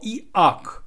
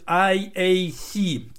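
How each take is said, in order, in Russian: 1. Буквы читаются с русскими звуками букв. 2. Буквы читаются с английскими названиями букв. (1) "угловато брутальная транскрипция русская, либо же немецкая" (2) "если ее произносить в английской транскрипции"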